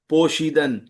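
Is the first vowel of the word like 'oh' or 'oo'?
oh. The first vowel is an 'oh' sound.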